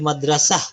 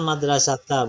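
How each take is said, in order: First: The word ends with an h sound. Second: The word ends with a long vowel. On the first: The speaker calls it right. "Kalau dia berhenti menjadi madrasah" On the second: The speaker calls it wrong. "Jangan madrasata, bukan"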